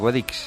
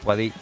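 First: The word ends with a final x sound. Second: The word ends on the stressed vowel, without x. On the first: The speaker calls it wrong. "Guadix nunca se dice Guadix" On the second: The speaker calls it right. "¿Y qué se dice? Guadí"

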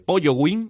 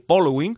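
First: The middle consonant sounds like a 'y'. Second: The middle consonant sounds like an 'l'. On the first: The speaker calls it wrong. "Todo el mundo que me habla de este Pollo Wing" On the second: The speaker calls it right. "o de este Polo Wing"

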